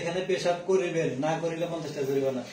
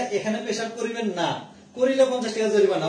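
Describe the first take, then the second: First: The pause comes before 'na'. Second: The pause comes after 'na'.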